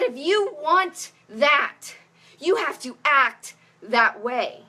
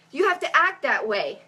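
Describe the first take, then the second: First: Slow, deliberate quoting; slow quote. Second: Said in the usual way. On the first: Retold or imitated. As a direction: spell it out slowly, word by word. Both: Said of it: "But she said".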